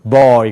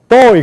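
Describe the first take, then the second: First: The voice resonates from deep down low. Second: The voice comes from high in the throat. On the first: The speaker calls it right. "그런단 말이에요" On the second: The speaker calls it wrong. "그런 말이 없어요"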